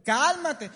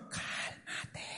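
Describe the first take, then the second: First: Loud, voiced command; raised-voice "settle down"; emphatic calming order. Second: Slow breath of a whisper; drawn-out calming whisper; hushed whisper. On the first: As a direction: call it out firmly. Repeats the advice out loud. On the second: Acted. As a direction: whisper it to settle them down. Hushing those eager to marry.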